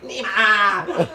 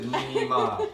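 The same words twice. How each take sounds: First: Louder, higher call of the name, half laughing; mock honking shout. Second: Said in the usual way. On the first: Taiwanese driver honking and yelling the name in mock anger. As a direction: bark the name out like an angry driver.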